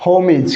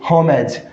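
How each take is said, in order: First: "होमिज" with short i ending; correct pronunciation. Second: "होमेज" with an open "ej" ending; wrong pronunciation. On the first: Teacher gives students the correct "होमिज" with short i. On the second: Teacher shows students the new word, mispronounced "होमेज" with e. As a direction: say "होमेज" with e in the second syllable. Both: Shown as a demonstration. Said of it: "इसका भी correct pronunciation क्या होगा?".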